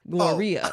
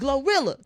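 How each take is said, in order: First: The double L sounds like a Y. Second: The double L sounds like an L. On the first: The speaker calls it wrong. "I thought it was pronounced Gloria like tortilla" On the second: The speaker calls it right. "she says Glorilla"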